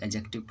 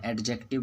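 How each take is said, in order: First: "एडजेक्टिव" with silent d; correct pronunciation. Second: "एडजेक्टिव" with the d sounded; wrong pronunciation. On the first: Teacher correcting the mistake, "एडजेक्टिव" without the d sound. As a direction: say "एडजेक्टिव" as a-jective. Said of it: "उसको हम लोग एडजेक्टिव पढ़ते हैं". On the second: Teacher quoting a common mistake, "एडजेक्टिव" with audible d. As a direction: say "एडजेक्टिव" as ad-jective. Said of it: "जो कि गलत है". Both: Shown as a demonstration.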